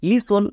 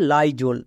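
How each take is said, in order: First: The first vowel is a short i sound. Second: The first vowel is an eye sound. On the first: The speaker calls it wrong. "ওয়াইয়ের জন্য হস্যিকার হবে" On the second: The speaker calls it right. "ওয়াইয়ের জন্য আই উচ্চারণ হবে"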